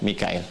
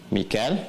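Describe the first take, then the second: First: The name is said as three syllables, Mi-ka-il. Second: The name is said as two syllables, Mi-kal. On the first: This follows the reading of Qalun and Warsh from Nafi'. "Di riwayat Qalun kemudian Warash dari Nafi' dibacanya Mikail" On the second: This follows the reading of Hafs from Asim. "riwayat Hafiz dari Asim"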